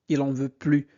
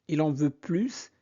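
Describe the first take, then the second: First: The final S of plus is silent. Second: The final S of plus is pronounced. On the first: He does not want any more. "on ne prononce pas le S" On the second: He wants more. "si vous prononcez le S"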